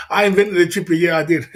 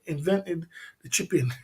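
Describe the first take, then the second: First: "I" punched hard and loud, proudly; stress on I. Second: Said in the usual way. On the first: Real, not acted. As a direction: slam the word "I", owning the invention. Boasting about his invention.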